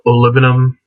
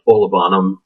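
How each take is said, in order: First: The stress falls on the second syllable. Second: The stress does not fall on the second syllable. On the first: The speaker calls it right. "emphasis on the second syllable" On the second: The speaker calls it wrong. "not Olibanum, like you see a lot of people saying on YouTube"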